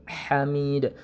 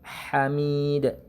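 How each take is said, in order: The two takes are said the same way.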